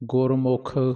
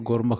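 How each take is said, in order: First: The second syllable has a u vowel. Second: The second syllable has an a vowel. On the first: The speaker calls it right. "ਮੰਮੇ ਦੀ ਔਂਕੜ" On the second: The speaker calls it wrong. "ਨਹੀਂ ਕਹਿਣਾ"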